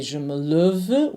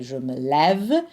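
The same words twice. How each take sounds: First: Closed first e in lève, like "luhv"; unopened vowel in lève, rising at the end; wrong vowel demo. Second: Lève with a clear open è; correct open vowel. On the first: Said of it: "we don't say". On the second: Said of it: "we say je me lève". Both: Shown as a demonstration.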